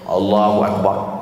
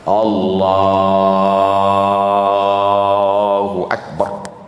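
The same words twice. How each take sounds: First: The takbir is said short and quick. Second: The takbir is drawn out long.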